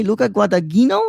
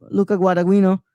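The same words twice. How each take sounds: First: Guadagnino as gwa-ta-GHEE-no, with a hard G; "Guadagnino" repeated as gwata-gheeno; questioned mispronunciation. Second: Guadagnino as gwa-da-WEE-no, the G softened away; "Guadagnino" slurred to gwada-weeno; attempted Italian pronunciation. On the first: Retold or imitated. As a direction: echo "Guadagnino" doubtfully with a hard G. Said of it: "What did you just say?". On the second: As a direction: try Italian on "Guadagnino", fumbling the middle. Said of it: "say it in the Italian pronunciation".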